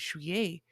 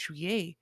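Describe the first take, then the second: First: It is said with a French pronunciation. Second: It is said with a French pronunciation.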